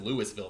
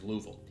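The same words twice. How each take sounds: First: It is said the way outsiders pronounce it. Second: It is said the way locals pronounce it. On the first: This is how people from elsewhere say it. The speaker calls it wrong. "no one says Louisville. They get real mad at you" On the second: This is how people who live there say it. The speaker calls it right. "what they say is Louisville"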